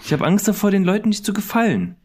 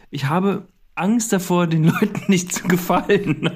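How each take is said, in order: First: Mock worried. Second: Trying not to laugh; stifled giggles. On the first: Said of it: "Komm, reiß dich zusammen". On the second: Acted. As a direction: giggles breaking through the words. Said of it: "Du bist persönlich beleidigt jetzt".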